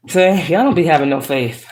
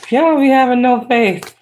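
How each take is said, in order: First: Teasing through a laugh; laughing tease. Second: Mock scolding. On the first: Pretend. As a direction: chuckle while scolding them. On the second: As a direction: tease them in a sassy high voice. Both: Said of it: "I'm playing".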